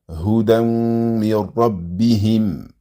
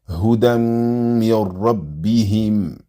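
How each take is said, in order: The two takes are said the same way.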